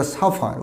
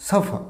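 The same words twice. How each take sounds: First: Suffer as "safaar", final r sounded; mispronounced with r. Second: Suffer as "safa", r left silent; silent final r. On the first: Teacher contrasting the error, suffer with sounded final r. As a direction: say suffer with an audible r at the end. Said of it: "not the suffer". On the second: Teacher modelling for learners, suffer with silent final r. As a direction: say suffer without the r at the end. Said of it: "শেষে আরটা silent হবে". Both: Shown as a demonstration.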